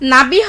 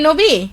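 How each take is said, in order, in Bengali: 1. প্রথম স্বরধ্বনিটি 'a' এর মতো শোনায়। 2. প্রথম স্বরধ্বনিটি 'o' এর মতো শোনায়। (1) "নাবি হবে তাহলে" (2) "আমার উচ্চারণ ঠ- সঠিক হয়নি"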